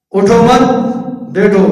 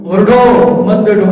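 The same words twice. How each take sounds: First: اٹھو مت together and rising, pause, then بیٹھو; "اٹھو مت", wait, lone "بیٹھو"; pause after مت. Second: Rising اٹھو, short pause, then مت بیٹھو together; "اٹھو" alone, then "مت بیٹھو"; pause after اٹھو. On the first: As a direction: hold the break until after مت. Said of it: "لیکن فرق کتنا ہے". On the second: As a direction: break right after اٹھو, keeping مت with بیٹھو. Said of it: "الفاظ وہی ہے". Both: Shown as a demonstration.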